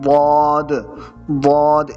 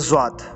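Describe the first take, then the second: First: It starts with a heavy emphatic d. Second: It starts with a z then w. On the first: The speaker calls it right. "इसका तलफ़ुज़ भी खालिस अरबी का तलफ़ुज़ है" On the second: The speaker calls it wrong. "कुछ लोगों ने ज़्वात पढ़ते रहे हैं, हालांकि ये दोनों गलत हैं"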